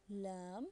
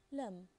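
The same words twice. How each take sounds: First: Lam with a long a; long vowel. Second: Lam with a short a; short vowel. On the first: Teacher rereading for learners, Lam with long vowel. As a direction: draw out the a in Lam. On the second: Teacher rereading for learners, lam with short vowel. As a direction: make the a in lam brief. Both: Shown as a demonstration. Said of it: "Can you hear the difference?".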